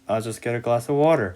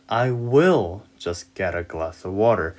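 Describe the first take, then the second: First: It is said quickly and reduced. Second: It is said slowly and carefully.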